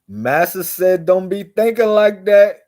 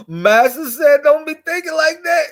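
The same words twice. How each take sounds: First: High, raised mock scolding voice; imitating slave mentality. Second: Very high mock shout; imitating slave mentality, shrieked. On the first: Mocking people who repeat master's orders, high scolding voice. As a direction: parrot the master's rule up high. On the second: Mocking people who repeat master's orders, shrieking higher and louder. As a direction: screech the rule at the top of the voice. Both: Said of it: "they be like this".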